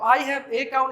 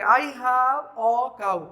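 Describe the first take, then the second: First: "a" said as a full "ए"; "I have a cow" with a full "ए"; wrong-way demo; wrong strong form. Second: "a" reduced to "अ", very slow; "I have a cow" with a weak "a"; slow corrected demo; weak form a. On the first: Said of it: "नहीं बोलेंगे हम लोग". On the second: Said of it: "क्या बोलेंगे?". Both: Shown as a demonstration.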